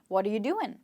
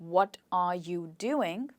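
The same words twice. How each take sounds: First: The words run together like one word. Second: Each word is said separately and fully. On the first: "the question which is spoken sounds like" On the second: "the question which is written is"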